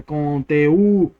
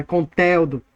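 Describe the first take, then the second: First: "conteúdo" slowly split, con-te-Ú, long stressed ú; slow teacher's "conteúdo" with the hiatus drawn out; correct stress on Ú. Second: "conteúdo" wrongly said con-TÉU-do, te and u merged; "conteúdo" mispronounced with the stress on a merged TÉU; wrong stress, middle syllable. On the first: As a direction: stretch and hit the separate Ú in "conteúdo". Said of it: "ela é a mais forte da palavra". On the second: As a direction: hit TEU as one syllable in "conteúdo". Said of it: "não é conteúdo". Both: Shown as a demonstration.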